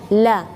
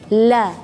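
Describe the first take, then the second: No difference in how they are said.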